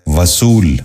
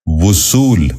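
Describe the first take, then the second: First: وصول said as "va-sool", short a after v; mispronounced. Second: وصول said as "vu-sool", short u after v; correct pronunciation. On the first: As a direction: open وصول with "va". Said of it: "یہ غلط تلفظ ہے". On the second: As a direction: open وصول with "vu". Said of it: "درست تلفظ ہے". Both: Shown as a demonstration.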